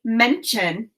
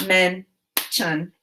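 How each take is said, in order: First: Said in the usual way. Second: "Mention" split into two syllables with a long pause between; "Mention" broken as men... tion; chopped syllables. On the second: Shown as a demonstration. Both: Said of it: "Now chop the syllables in mention".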